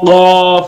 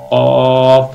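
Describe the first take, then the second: First: The letter is said with heavy, strong force. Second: The letter is said with medium, moderate force. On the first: The speaker calls it wrong. "অনেকে কফ এরকম বলে, মানে বেশি জোর দেওয়া যাবে না" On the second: The speaker calls it right. "একদম মিডিয়াম আওয়াজে বলতে হবে"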